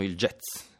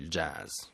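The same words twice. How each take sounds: First: The vowel is e and the final z is ts-like. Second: The vowel is a and the final z is buzzing. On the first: This is how everyone in Italy says it. "Tutti dicono il jazz" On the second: Nobody in Italy says it this way. "Nessuno dice il jazz"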